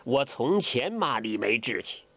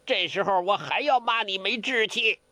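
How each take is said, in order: First: Said in the usual way. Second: Higher scolding voice with 要 stressed; 要 in 这时候我还要骂你没志气 hit hard. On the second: Acted. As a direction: scold him for his lack of spirit. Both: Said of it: "梅超风骂他".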